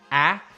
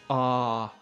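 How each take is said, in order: First: The vowel is short and sharp. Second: The vowel is long and drawn out. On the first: "the short sharp ah" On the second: "the sort of more drawn out ah sound"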